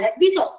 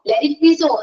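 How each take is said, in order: First: The word 'it' is silent. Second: The word 'it' is clearly pronounced. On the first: The speaker calls it right. "ഇറ്റ് ഉണ്ട്, പക്ഷെ അത് silent ആവും" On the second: The speaker calls it wrong. "എന്ന് പറയണ്ട"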